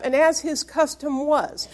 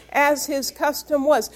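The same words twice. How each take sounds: First: Said in the usual way. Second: "as his custom was" repeated slowly, each word weighed, falling on "was"; slow down and lean on "custom" and "was"; slow emphatic repeat. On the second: Real, not acted. Pastor repeating the verse to the church so it sinks in, slow and emphatic. Repeats phrase to drive it home.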